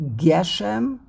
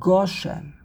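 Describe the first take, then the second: First: The first vowel sounds like 'e'. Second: The first vowel sounds like 'o'. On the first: "Is it Geshem" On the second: "or is it Goshem? ... the correct pronunciation"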